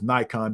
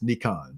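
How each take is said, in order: First: It is said the American way, like Nye-kon. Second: It is said the Japanese way, like Nee-kon.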